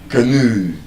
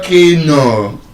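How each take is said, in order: First: The stress is on the second syllable. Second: The stress is on the first syllable. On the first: The speaker calls it right. "The stress is on the moe, the second syllable ... the correct pronunciation of that word is canoe" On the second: The speaker calls it wrong. "It's not canoe. ... your pitch goes up in that first syllable"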